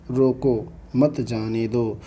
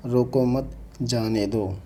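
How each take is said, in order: First: Slow "रोको", pause, then "मत जाने दो" together; pause after रोको. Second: "रोको मत" together, pause, then "जाने दो"; pause after मत. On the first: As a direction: break the sentence right after रोको. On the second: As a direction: break the sentence after मत, not after रोको. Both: Shown as a demonstration. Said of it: "थोड़ा रुकना होता हो".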